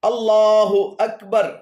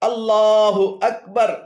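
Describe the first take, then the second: The two takes are said the same way.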